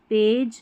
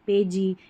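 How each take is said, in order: First: The ending is said as a short 'j'. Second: The ending is said as a full 'jee'. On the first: The speaker calls it right. "ऐसे पढ़ देना है" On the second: The speaker calls it wrong. "ऐसे नहीं"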